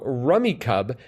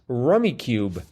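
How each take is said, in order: First: The second word has a short 'uh' vowel. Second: The second word has a long 'you' vowel. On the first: The speaker calls it wrong. "as I would have pronounced it up until a moment ago" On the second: The speaker calls it right. "Rummy Cub should be pronounced Rummy Cube"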